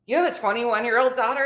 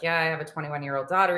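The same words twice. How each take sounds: First: Higher-pitched imitated incredulity; disbelieving echo. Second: Said in the usual way. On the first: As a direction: question it as if you can't believe it. His disbelieving echo of her answer.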